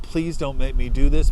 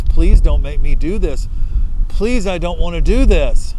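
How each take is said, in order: First: Raised, begging plea to God; first plea, already louder; pleading with God. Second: Much louder, begging cry to God; full-voiced desperate begging, voice straining; desperate crying plea. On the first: Retold or imitated. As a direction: beg God to spare him, voice rising. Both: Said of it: "He's crying. He's asking God".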